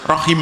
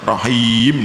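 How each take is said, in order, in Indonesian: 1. Vokal sebelum m terakhir pendek. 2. Vokal sebelum m terakhir panjang. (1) "kalau rohima pendek, wakafnya harus rohim" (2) "tidak boleh rohim"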